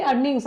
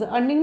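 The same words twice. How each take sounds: First: "अर्निंग्स" closed with an s; plural ending sounded. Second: Said in the usual way. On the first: Shown as a demonstration. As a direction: give "अर्निंग्स" as the correction, final s audible. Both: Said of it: "अर्निंग नहीं".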